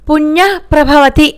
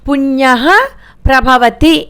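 First: The visarga merges into the next syllable. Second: The visarga is sounded clearly on its own. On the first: The speaker calls it right. "పుణ్య ప్రభవతి అని చదవాలి" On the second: The speaker calls it wrong. "పుణ్య ప్రభవతి అని చదవకూడదు"

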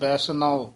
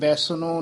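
First: The word ends with an 'av' sound. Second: The word ends with an 'o' vowel sound. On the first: The speaker calls it right. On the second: The speaker calls it wrong.

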